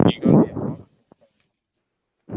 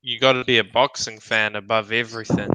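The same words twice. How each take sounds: First: Breathy whispered repeat; whispered echo. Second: Said in the usual way. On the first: Shown as a demonstration.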